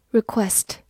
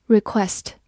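No difference in how they are said.

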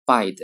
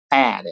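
First: Bad with vowels added, said like Chinese syllables; wrong Chinglish bad; pinyin-style bad. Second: Bad with a clean short b and clipped d; crisp English bad. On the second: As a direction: snap out bad. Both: Shown as a demonstration. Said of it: "不能读作bad".

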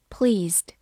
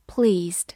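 Both takes have the same delivery.

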